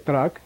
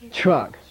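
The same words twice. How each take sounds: First: It starts with separate 't' and 'r' sounds. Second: It starts with a palatal 'ch' sound. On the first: The speaker calls it wrong. "You don't say truck" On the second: The speaker calls it right. "You say C H R U K"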